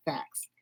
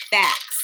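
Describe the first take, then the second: First: "Facts." in a soft New York accent, vowel stretched. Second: Said in the usual way. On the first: Shown as a demonstration. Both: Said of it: "Facts in my New York accent".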